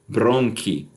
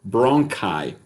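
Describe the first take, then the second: First: It is said with Latin-style pronunciation. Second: It is said with English pronunciation. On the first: "in the um, Italic form" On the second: "in the plural form in English"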